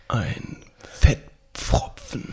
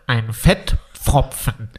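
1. Es wird mit weicher, gehauchter Stimme gesprochen. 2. Es wird nasal gesprochen. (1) "ASMR-mäßig mit deiner sexiesten Stimme das Wort Pfropfen ins Mikrofon hauchen" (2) "Jetzt noch nasal"

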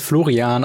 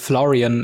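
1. Der Name wird auf Deutsch ausgesprochen. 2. Der Name wird auf Englisch ausgesprochen. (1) "im Deutschen ausgesprochen ist es Florian" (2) "wahrscheinlich ist es Florian im Englischen"

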